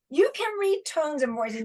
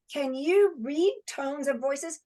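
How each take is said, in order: First: Said in the usual way. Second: "Can you read tones and voices?" with pitch rising on "you" and at the end; asked as a question. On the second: Shown as a demonstration.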